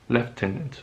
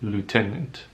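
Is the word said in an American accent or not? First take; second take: not American; American. First: It is said without an American accent. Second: It is said in an American accent.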